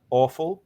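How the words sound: It has an Australian vowel. "Australian talk, awful"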